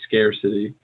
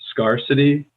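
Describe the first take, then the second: First: The first syllable sounds like 'scare'. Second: The first syllable does not sound like 'scare'. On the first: The speaker calls it right. "we say scarcity" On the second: The speaker calls it wrong. "you said scarcity"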